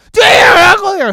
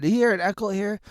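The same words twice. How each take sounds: First: Shouted echo, higher, louder and faster; loud mock echo. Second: Said in the usual way. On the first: Shown as a demonstration. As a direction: play the echo bouncing back loud.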